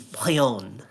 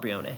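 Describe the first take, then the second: First: The final E is silent. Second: The final E is pronounced as a vowel. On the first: The name is read as coming from a French-style region. "If it was from Kalos, it it could be Plione" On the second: The name is read as coming from a Hawaiian-style region. "Hawaiian ca I think pronounces all its vowels, so we'll call it Brione"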